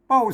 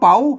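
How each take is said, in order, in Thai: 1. ออกเสียงด้วยเสียงโทพิเศษแบบเหนือ 2. ออกเสียงด้วยเสียงจัตวา (1) "เสียงโทพิเศษโทเมือง" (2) "เสียงชัด"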